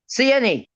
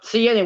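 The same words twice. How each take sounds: First: It is said slowly. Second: It is said at normal speed.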